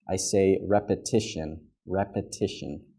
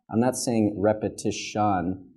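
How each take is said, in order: First: Repetition with a light eh in the middle syllable; eh vowel. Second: Repetition with a clear ah in the middle syllable; ah vowel. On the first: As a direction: say repetition with a quick eh. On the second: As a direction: say repetition with ah, not schwa. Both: Shown as a demonstration. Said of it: "more of an eh sound than an ah".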